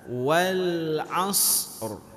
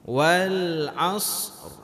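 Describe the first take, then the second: The two takes are said the same way.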